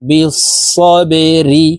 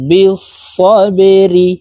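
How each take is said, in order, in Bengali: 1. শব্দটি 'ri' ধ্বনি দিয়ে শেষ হয়। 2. শব্দটি 'ri' ধ্বনি দিয়ে শেষ হয়।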